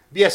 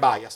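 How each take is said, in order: First: The word is pronounced the Italian way. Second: The word is pronounced the English way. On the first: It is the easier, more convenient form. "bias è più comodo" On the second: It follows the word's English origin. "bisognerebbe dire bias perché è inglese come parola"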